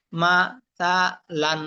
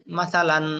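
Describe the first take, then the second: First: মা, সা, লান one syllable at a time; broken syllables. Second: Said in the usual way. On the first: Shown as a demonstration. Teacher showing learners broken pronunciation, syllable by syllable. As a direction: separate মা, সা, লান with pauses. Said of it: "ভাঙ্গা উচ্চারণ করবেন একটা একটা করে". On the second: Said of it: "ভাঙ্গা উচ্চারণ একটা একটা করে পড়লেন".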